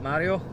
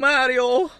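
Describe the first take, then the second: First: It is said in the speaker's ordinary accent. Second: It is said in a put-on Italian accent.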